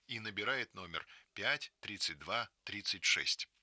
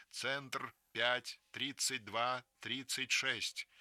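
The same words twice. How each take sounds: First: Said in the usual way. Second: «пять тридцать два тридцать шесть» read out very slowly, digit by digit; slow, deliberate number for listeners to write down; slow announced phone number. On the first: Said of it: "narration repeats number". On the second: Acted. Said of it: "продолжает репродуктор".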